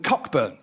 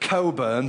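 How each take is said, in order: First: It is said with a clear 'cock' sound. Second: It is said as 'co', with no 'ck'.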